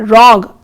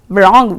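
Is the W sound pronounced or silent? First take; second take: silent; pronounced. First: The W at the start is silent. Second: The W at the start is pronounced. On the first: The speaker calls it right. "we say wrong where W is not pronounced" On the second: The speaker calls it wrong. "we do not pronounce wrong"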